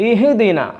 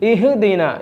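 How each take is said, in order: First: The h sound bounces with a vibrating echo. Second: The h sound bounces with a vibrating echo.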